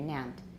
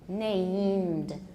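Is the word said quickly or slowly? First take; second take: quickly; slowly. First: The word is said quickly and rushed. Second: The word is said slowly and carefully. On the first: The speaker calls it wrong. "If you do it too fast, it'll come out named or named" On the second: The speaker calls it right. "So take it slowly"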